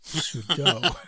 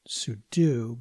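First: "sudo" said as soo-doh; common pronunciation. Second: "sudo" said as soo-doo; more accurate pronunciation. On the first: Host teaching the common form, "sudo" said soo-doh. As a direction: end "sudo" on doh, rhyming with go. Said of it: "more commonly pronounced". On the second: Host teaching the accurate form, "sudo" said soo-doo. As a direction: end "sudo" on doo, like the word do. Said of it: "more accurately pronounced". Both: Shown as a demonstration.

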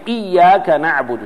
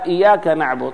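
First: "إياك" with the ya clearly doubled; "إياك" said iyyaka with a held ya. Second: "إياك" said iyaka with a single light ya; "إياك" said wrongly with one ya; ya without shadda. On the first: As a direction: stress the shadda in "إياك". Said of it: "لو قال". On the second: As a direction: drop the doubling in "إياك". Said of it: "صار اسم لضوء". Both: Shown as a demonstration.

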